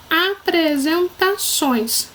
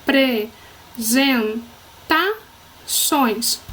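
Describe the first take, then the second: First: Apresentações drawn out as one unbroken word; slow whole word. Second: Apresentações as a, pre, zen, ta, ções with pauses; syllable by syllable. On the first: Teacher announcing the third word, apresentações slow and whole. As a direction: say apresentações slowly, without breaks. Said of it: "Terceira palavra". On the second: Teacher separating the word, apresentações syllable by syllable. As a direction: break apresentações into five separate beats. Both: Shown as a demonstration.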